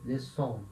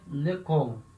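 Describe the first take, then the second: First: The middle consonant is an S sound. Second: The middle consonant is a K sound. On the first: "ele tem a cedilha para ter esse som de S" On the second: "Se não tivesse a cedilha, eu falaria lecon"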